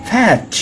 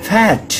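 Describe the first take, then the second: Both takes have the same delivery.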